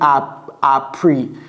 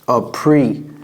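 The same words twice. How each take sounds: First: The first vowel has a French sound. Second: The first vowel has an English sound. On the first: The speaker calls it wrong. "J'ai pas dit appre" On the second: The speaker calls it right. "Et vous voyez comment je prononce le A"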